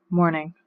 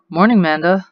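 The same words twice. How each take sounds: First: Curt and a bit softer; sullen reply. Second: Bright, rising hello; cheerful greeting. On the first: Teen daughter to her dad at breakfast, sullen and curt. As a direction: mumble it back without interest. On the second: Dad to his daughter at breakfast, cheerful greeting. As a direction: greet her like nothing is wrong. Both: Acted.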